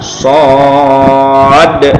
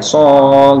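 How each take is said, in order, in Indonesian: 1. Kata ini berakhir dengan bunyi d yang jelas. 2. Kata ini tidak berakhir dengan bunyi d. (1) "Jadi yang tepat adalah sod ya" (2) "kalau yang belum belajar ya so gitu ya. Nah, salah"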